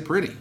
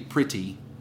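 First: The middle consonant is a soft D sound. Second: The middle consonant is a crisp T sound. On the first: "with two D's instead of two T's" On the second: "instead of two T's"

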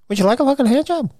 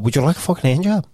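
First: It is said in a high pitch. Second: It is said in a normal pitch.

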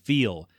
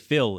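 First: The vowel is long, like in feel. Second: The vowel is short, like in fill. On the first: The speaker calls it right. "instead of feel" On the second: The speaker calls it wrong. "they will say feel instead of feel"

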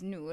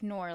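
First: It is said with the Arabic pronunciation. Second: It sounds like the English word 'nor'. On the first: It is the original word meaning light. The speaker calls it right. "that's how it's supposed to be pronounced" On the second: It is a simplified version for English speakers. The speaker calls it wrong. "like the conjunction"

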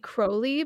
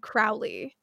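First: The name is said the British way. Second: The name is said the American way. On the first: The speaker calls it right. "that's how British people say it" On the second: The speaker calls it wrong. "every American I've ever heard has said Crowley"

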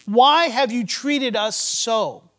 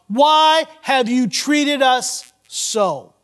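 First: It is said in a calm tone. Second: It is said in a frustrated tone.

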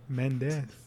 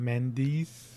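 First: The name is said with a non-American pronunciation. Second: The name is said with an American pronunciation. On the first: "as we say" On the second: "As Americans say"

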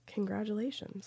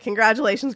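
First: It is said in a flat, sad-sounding tone. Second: It is said in a brighter, enthusiastic tone. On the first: The speaker calls it wrong. "Meg always sounds so sad when Gryffindor wins" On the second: The speaker calls it right. "I shouldn't sound sad"

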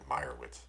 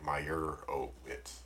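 First: The 'o' syllable is not stressed. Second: The 'o' syllable is clearly stressed. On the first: The speaker calls it right. "They didn't really accentuate the O. ... They just said Meyerowitz" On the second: The speaker calls it wrong. "So it wasn't like Meyerowitz"

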